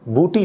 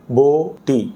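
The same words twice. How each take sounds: First: بوٹی said with u, as buti; wrong u sound. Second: بوٹی with a long o, no pesh; correct o sound. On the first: Teacher shows students the wrong بوٹی, u sound. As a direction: mispronounce بوٹی with pesh, buti. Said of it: "بوٹی نہیں". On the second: Teacher models correct بوٹی for students, clear o. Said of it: "ضمہ جو ہے وہ نہیں آ رہا". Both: Shown as a demonstration.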